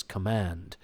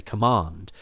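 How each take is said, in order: First: "command," with a flat American a as in cat; American pronunciation. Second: "command." with a long broad ah as in father; the actor's natural English "command." with a long ah; British pronunciation. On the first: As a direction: say "command," the American way, kuh-MAND with the a of man. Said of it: "where he says". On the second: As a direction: say "command." the British way, kuh-MAHND. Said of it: "whereas he would actually say". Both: Retold or imitated.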